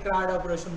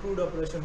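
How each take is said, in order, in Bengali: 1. CRUD-এর স্বরধ্বনিটি 'a' এর মতো শোনায়। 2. CRUD-এর স্বরধ্বনিটি 'u' এর মতো শোনায়। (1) "অনেকে ক্রাড অপারেশন বলে" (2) "কেউ ক্রুড অপারেশন বলে"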